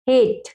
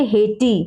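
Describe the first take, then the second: First: हेट as one syllable ending on t; correct pronunciation. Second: हेटी with a sounded final ee; children's misreading. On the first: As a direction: say हेट with silent final e. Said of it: "हेटी नहीं". (अंत का ई चुप रखकर हेट) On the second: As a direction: misread it as two syllables, हेटी. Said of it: "कुछ बच्चे पढ़ेंगे". (अंत में ई बोलकर हेटी) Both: Shown as a demonstration.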